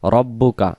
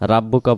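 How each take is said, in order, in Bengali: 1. r ভারী, আর স্বরধ্বনিটি গোলাকার। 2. r-এর পরে একটি পাতলা খোলা 'a' আছে। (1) "এখানে উচ্চারণ হবে র" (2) "রা র না হয়ে রা উচ্চারণ হচ্ছে"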